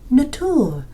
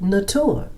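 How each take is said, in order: First: The word is pronounced as in French. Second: The word is pronounced as in English. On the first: The speaker calls it right. "no, no, no, no" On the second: The speaker calls it wrong. "nature is written the same way in French as it is in English, but I pronounced it nature"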